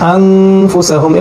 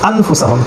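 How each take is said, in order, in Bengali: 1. "ন" ধ্বনিটি নাকি গুঞ্জনে গোপন থাকে। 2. "ন" ধ্বনিটি স্পষ্ট "ন" হিসেবে উচ্চারিত হয়। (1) "আন না পড়ে আং পড়বো, নুনটাকে গোপন করে ফেলবো" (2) "আসলে শব্দটা হয় আনফুসাহুম"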